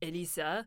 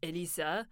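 First: The name is said with French pronunciation. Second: The same.

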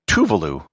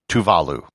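First: All syllables carry equal stress. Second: The stress falls on the second syllable. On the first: The speaker calls it wrong. "with no syllable accented" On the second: The speaker calls it right. "with the accent on the second syllable"

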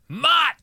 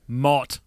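First: The name is yelled loudly, like O'Neill. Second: The name is said calmly, not yelled.

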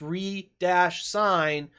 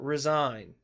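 First: The first syllable sounds like 'ree'. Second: The first syllable sounds like 'reh'. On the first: Signing again. The speaker calls it right. "it's re-sign" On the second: Quitting a position. The speaker calls it wrong. "not resign"

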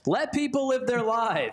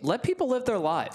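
First: It is said loudly and forcefully. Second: It is said softly and hesitantly.

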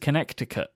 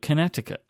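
First: The middle C is pronounced as a K sound. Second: The middle C is left silent. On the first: The speaker calls it wrong. "That C goes in, but you don't call the place Connecticut" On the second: The speaker calls it right. "You call it Connecticut. ... You don't make that C sound"

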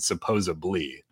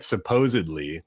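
First: The middle consonant is a b sound. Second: The middle consonant is a d sound. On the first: The speaker calls it wrong. "pronounce it with a B" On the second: The speaker calls it right. "You write it with a D, which is correct"

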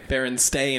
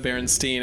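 First: The last syllable rhymes with 'rain'. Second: The last syllable does not rhyme with 'rain'. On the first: This is how the name was actually spelled. The speaker calls it right. "It was always A-I" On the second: This is how people misremember the name. The speaker calls it wrong. "instead of"

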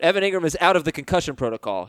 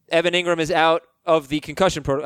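First: There is no pause after the word out. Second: There is a pause right after the word out. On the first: He has cleared the protocol. The speaker calls it right. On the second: He is out of action. The speaker calls it wrong.

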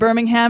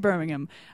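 First: Birmingham is pronounced in an American way. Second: Birmingham is pronounced in a British way. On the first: This is how the speaker used to say it. The speaker calls it wrong. "I don't say Birmingham anymore" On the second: This is how the speaker says it now. The speaker calls it right. "I say Birmingham"

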